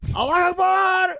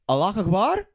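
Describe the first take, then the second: First: It falls at the end like an exclamation. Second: It rises at the end like a question.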